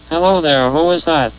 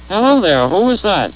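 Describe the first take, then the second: First: The pitch rises and falls with half the range. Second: The pitch rises and falls with normal range.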